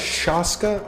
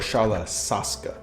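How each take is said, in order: First: The third syllable starts with an 'sh' sound. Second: The third syllable starts with an 's' sound. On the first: The speaker calls it right. "I think it's Shalashaska. Two two S H sounds in there" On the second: The speaker calls it wrong. "That second one doesn't sound right"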